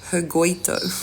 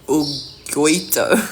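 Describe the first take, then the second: First: The name begins with a sounded h. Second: The name begins without an h sound. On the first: "in England we have Hugo. So that's why I'm starting it out like that" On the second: "then I guess you don't pronounce the H"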